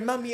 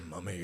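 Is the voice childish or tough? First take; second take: childish; tough. First: It is said in a childish, baby-talk voice. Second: It is said in a deep, tough voice. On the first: The speaker calls it right. "Like this. ... That's the tonality" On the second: The speaker calls it wrong. "You cannot say that in a tough tone ... can't go deep, strong"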